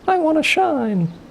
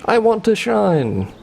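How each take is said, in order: First: It is said in a higher, faster voice. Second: It is said in a normal voice.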